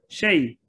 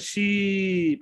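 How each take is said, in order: First: The vowel glides as 'ay'. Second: The vowel is a long 'ee' sound. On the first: The speaker calls it right. "Shay khun. Say shay khun" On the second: The speaker calls it wrong. "we say she, but no, it's not she"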